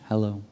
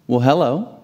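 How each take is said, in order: First: Tiny, soft imitated hello; sheepish child. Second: Put-on light rising greeting to a child; friendly greeting. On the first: Shy five-year-old answering a stranger at checkout, sheepish. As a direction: mumble it softly like a shy little boy. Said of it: "looks down sheepishly". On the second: Grocery bagger greeting five-year-old Leo, friendly. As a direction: greet a little one, lifting at the end.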